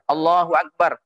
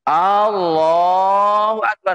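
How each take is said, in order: First: The opening vowel of Akbar is short. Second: The opening vowel of Akbar is drawn out long. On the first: The speaker calls it right. "takbiratul ihramnya sudah benar" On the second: The speaker calls it wrong. "hamzahnya tetap panjang"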